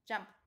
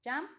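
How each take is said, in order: First: "jumped" with ED as a bare T; final T sound. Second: Said in the usual way. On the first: Shown as a demonstration. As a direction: say "jumped" as jumpt, one syllable. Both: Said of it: "pronunciamos la E D como una".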